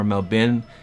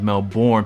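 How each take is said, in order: First: It is said imitating an Australian accent. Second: It is said in an American accent. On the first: "It's like more of a Melbourne" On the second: "every time I said Melbourne, people were like, no"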